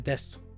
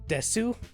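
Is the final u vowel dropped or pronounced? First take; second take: dropped; pronounced. First: The final u vowel is dropped. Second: The final u vowel is fully pronounced. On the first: The speaker calls it right. "you just say des" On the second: The speaker calls it wrong. "it's spelled out like desu"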